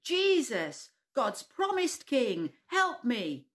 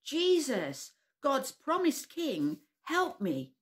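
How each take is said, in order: First: Slow, higher, louder desperate shout. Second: Slow calling shout, higher and louder. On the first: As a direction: yell it even louder. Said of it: "shouted even louder". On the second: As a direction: call out to Jesus across the crowd. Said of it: "shouted very loudly". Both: Acted.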